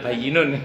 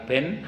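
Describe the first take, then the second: First: The word is said in full, 'bayyinun'. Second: The word is shortened to one syllable, 'ben'. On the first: The speaker calls it right. "Padahal bayyinun" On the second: The speaker calls it wrong. "ada yang baca halal ben"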